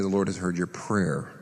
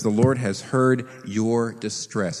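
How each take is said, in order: First: Said in the usual way. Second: Slow, with heard leaned on hard; stress on heard. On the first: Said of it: "he doesn't say". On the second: Shown as a demonstration. Preacher giving the true wording to his congregation, slow stress on heard. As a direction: drag it out and hit heard. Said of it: "In fact, literally it says".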